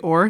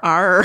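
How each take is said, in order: First: The letter sounds like the word 'or'. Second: The letter sounds like 'ar'. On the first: "I wonder if it's a purely Irish thing that we say the letter or" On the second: "They want you to say R"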